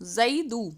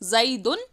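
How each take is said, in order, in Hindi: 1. शब्द स्वर पर खत्म होता है, बिना n के। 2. शब्द n की आवाज़ से खत्म होता है।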